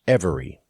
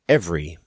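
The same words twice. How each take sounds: First: Every written syllable is pronounced in the word. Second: One written syllable is dropped from the word. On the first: The speaker calls it wrong. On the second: The speaker calls it right. "more syllables written than there are pronounced"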